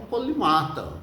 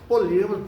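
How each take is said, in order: First: The stress is on the syllable ma. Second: The stress is on the syllable li. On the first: This is the form the speaker likes to use. "eu gosto da questão de chamar polimata" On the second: This is the form it is supposed to have. "paroxia, tem a ser"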